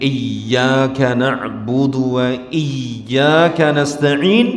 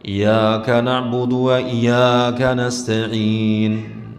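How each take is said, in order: First: The y sound in iyyaka is held doubled. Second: The y sound in iyaka is short, single. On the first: Only you we worship and only you we ask for help. The speaker calls it right. "Dia seharusnya mengatakan" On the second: We worship and ask help from sunlight. The speaker calls it wrong. "tanpa ada penekanan tasydid pada ya"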